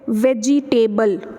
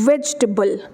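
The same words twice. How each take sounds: First: The ending is a full 'table' sound. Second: The ending is reduced to 'tbl'. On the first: The speaker calls it wrong. "वेजिटेबल गलत है" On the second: The speaker calls it right. "ये टेबल भी पूरा का पूरा नहीं होता"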